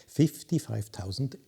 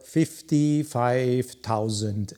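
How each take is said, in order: First: "fifty-five thousand" restated softly; quiet aside on "fifty-five thousand"; deliberate repeat. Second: FIFTY-FIVE THOUSAND drawn out slowly; slow, weighty stress on "fifty-five thousand"; emphatic price. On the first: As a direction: drop "fifty-five thousand" into a softer, understated tone. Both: Real, not acted. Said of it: "I repeat that".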